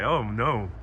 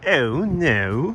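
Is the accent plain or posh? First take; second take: plain; posh. First: It is said in the speaker's ordinary accent. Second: It is said in a posh English accent.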